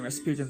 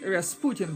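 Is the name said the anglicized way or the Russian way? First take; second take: anglicized; Russian. First: The name is pronounced an anglicized way. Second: The name is pronounced the Russian way. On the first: The speaker calls it wrong. "rather than" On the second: The speaker calls it right. "that is the correct pronunciation, because that was the name of the Russian mystic"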